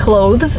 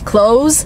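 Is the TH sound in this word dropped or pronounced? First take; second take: pronounced; dropped. First: The TH sound is pronounced before the final S. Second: The TH sound is left out completely. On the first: "instead of saying clothes" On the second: "Just omitting the TH sound completely"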